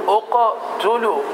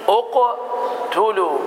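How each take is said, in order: Both takes have the same delivery.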